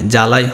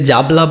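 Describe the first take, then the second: First: No b sound follows the first consonant. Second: A b sound follows the first consonant. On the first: The speaker calls it right. "এটা উচ্চারণ কি হয়" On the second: The speaker calls it wrong. "জাবলা তো উচ্চারণ হয় না"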